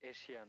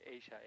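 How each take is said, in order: First: It sounds like eh-shi-ya, three syllables. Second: It sounds like ay-sha, two syllables. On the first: The speaker calls it wrong. "এশিয়া না" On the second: The speaker calls it right.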